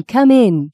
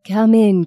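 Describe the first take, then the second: First: Put-on repeated come in, higher and louder, Australian accent. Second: Put-on a friendly Australian accent, come in; welcoming in broad Australian. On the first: Anne calls Maggie inside, louder Australian accent. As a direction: call it out warmly, Australian. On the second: Anne greets Maggie at the door, Australian accent. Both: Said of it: "she said in a strong Australian accent".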